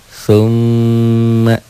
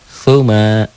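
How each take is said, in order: First: The m is doubled, held long and nasal. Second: The m is single, short and not held. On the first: "ditahan, double dan dengung" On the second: "Nggak ada yang panjang. Nggak ada yang ditahan"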